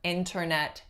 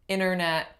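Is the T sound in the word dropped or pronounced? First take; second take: pronounced; dropped. First: The T sound is clearly pronounced. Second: The T sound is left out completely. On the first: "It's not wrong to say the T" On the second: "no T at all"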